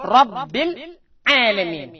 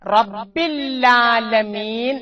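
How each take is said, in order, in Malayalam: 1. ചെറിയ ഇടവേള രണ്ട് വാക്കുകളെ വേർതിരിക്കുന്നു. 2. ഇവ കൂടിച്ചേർന്നിരിക്കുന്നു, ല്ല ഇരട്ടിക്കുന്നു. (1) "അല്പം മുറിച്ചുകൊണ്ട് ഓതുകയാണെങ്കിൽ ആ പ്രശ്നം വരുന്നില്ല" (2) "മുറിക്കാതെ ഓതുന്നുകൊണ്ടാണ്"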